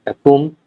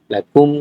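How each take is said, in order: Both takes have the same delivery.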